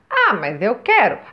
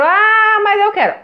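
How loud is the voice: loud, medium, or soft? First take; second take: soft; loud. First: It is said at the softest volume. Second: It is said at the loudest volume.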